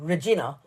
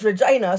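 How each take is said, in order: First: It does not rhyme with 'vagina'. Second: It rhymes with 'vagina'. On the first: The speaker calls it wrong. "I would have said Regina" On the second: The speaker calls it right. "it's Regina, so I've written in brackets as in vagina"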